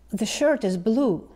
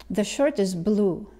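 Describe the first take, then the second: No difference in how they are said.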